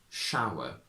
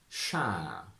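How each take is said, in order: First: Modern RP, with a w glide in the vowel. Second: Traditional posh RP, vowel smoothed into long ah. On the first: "From traditional to modern" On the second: "From traditional to modern"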